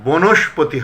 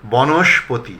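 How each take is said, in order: First: বনস্পতি said as "bonoshpoti"; closed "bo" opening বনস্পতি; mistaken close o. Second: বনস্পতি said as "bɔnoshpoti"; correct open vowel. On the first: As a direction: say বনস্পতি with a rounded first o, "bo-nosh-po-ti". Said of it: "হবে না". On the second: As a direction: say বনস্পতি with an open aw, "baw-nosh-po-ti". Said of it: "হবে". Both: Shown as a demonstration.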